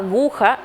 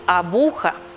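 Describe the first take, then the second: First: The middle consonant is a g sound. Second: The middle consonant is a b sound. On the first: The speaker calls it right. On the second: The speaker calls it wrong.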